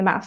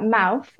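First: "mouth" ending in an F sound, like "mouf"; fronted TH. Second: Said in the usual way. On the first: Shown as a demonstration. Linguist showing listeners an Estuary feature, "mouth" with TH-fronting. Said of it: "said with the tongue a little bit further forward". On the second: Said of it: "you might hear words like".

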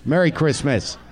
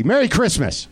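First: Said in the usual way. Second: Merry Christmas lifted higher and brighter; cheerful higher Merry Christmas; higher festive greeting. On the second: Shown as a demonstration. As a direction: sing out the greeting a little higher. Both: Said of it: "Merry Christmas repeated".

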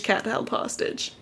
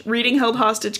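First: "held hostage" whispered, unvoiced and slower. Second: Said in the usual way. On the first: Shown as a demonstration.

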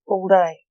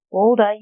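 First: Said in the usual way. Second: Mildly incredulous repeat; incredulous echo. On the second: A narrator's reading. Fox echoing Lance's alibi, mildly incredulous. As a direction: throw the answer back in disbelief.

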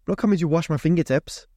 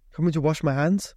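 First: "coming" met nadruk, dalend; stress on coming. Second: "Coming" met nadruk en stijgende toon; "Coming" nog eens benadrukken; stress on coming. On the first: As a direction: benadruk "coming" spottend. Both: Shown as a demonstration.

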